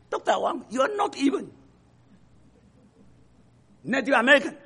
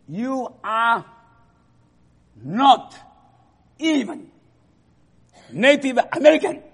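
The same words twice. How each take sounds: First: Mocking repeat. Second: Angry student. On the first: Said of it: "差到这个程度". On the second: Retold or imitated. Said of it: "这个人很不高兴".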